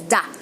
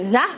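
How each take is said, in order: First: The word begins with a hard d sound. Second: The word begins with a soft th sound. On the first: "we can pronounce it as da" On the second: "the T H sound"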